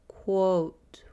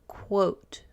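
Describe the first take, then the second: The two takes are said the same way.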